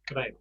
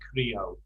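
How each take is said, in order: First: The final O is cut off short, Spanish style. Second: The final O is drawn out, English style.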